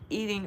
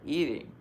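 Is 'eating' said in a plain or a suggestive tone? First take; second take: plain; suggestive. First: The word is said in a plain, literal tone. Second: The word is said in a suggestive, flirtatious tone. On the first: It means literally consuming a person as food. "like Jeffrey Dahmer eating" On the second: It carries a sexual innuendo. "hello, my friend, kind of eating"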